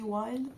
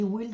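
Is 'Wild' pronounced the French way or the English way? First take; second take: English; French. First: The name is said with an English-style vowel. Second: The name is said with a French-style vowel. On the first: This is how the name is properly said. The speaker calls it right. "ça se dit Wild" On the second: This is how the speaker habitually says it. The speaker calls it wrong. "moi je dis Wild"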